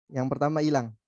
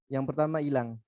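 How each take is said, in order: No difference in how they are said.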